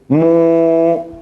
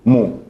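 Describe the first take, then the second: First: The vowel is held long. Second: The vowel is cut very short. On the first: It becomes a different category of vowel. The speaker calls it wrong. "Si pronuncio mu, es otra categoría" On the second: It is the short vowel damma. The speaker calls it right. "Tiene que estar corta"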